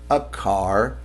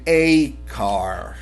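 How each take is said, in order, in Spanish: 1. El artículo se dice unido suavemente al sustantivo. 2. El artículo se dice separado del sustantivo. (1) "nosotros pegamos siempre el artículo" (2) "cuando yo tengo esta A y la separo, yo puedo decir a car"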